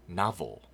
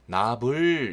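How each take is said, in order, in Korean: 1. 마지막 음절의 모음은 거의 들리지 않습니다. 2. 마지막 음절의 모음이 또렷하게 들립니다. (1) "슬쩍 을을 집어넣는 형식으로 해주시면 좀 더 세련되게 들리고요" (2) "너무 불 이렇게 발음하시면 안 됩니다"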